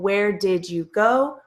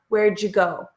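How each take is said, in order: First: Each word is said fully and separately. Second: The words are reduced and run together.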